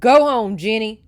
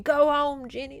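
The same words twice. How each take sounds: First: Loud command hurled over a storm; shouting. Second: Mild mock shout, raised and quickly dropping; retold shout. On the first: A narrator's reading. Man on horseback sends girl away, shouting over rain. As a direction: shout it hard, falling at the end. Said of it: "he shouted above the pelting rain". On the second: Reader re-enacts the rider's order, lightly shouted. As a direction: recap his command with a raised voice. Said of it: "and he's saying".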